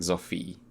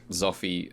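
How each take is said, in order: First: The final vowel is drawn out long. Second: The final vowel is short. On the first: "now it's like" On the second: "initially it was like"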